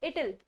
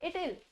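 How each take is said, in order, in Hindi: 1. 'w' छोड़ दिया जाता है, जिससे 'it'll' बनता है। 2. 'w' छोड़ दिया जाता है, जिससे 'it'll' बनता है।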